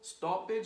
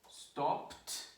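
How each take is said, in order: First: The word is said with an extra second syllable. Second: The word is said as one syllable. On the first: The speaker calls it wrong. "there is no stoppage" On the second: The speaker calls it right. "one syllable, no extra syllable"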